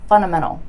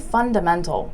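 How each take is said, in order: First: The D sound is dropped, like 'funnamental'. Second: The D sound is clearly pronounced. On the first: "So I actually said funna" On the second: "I didn't say fundamental"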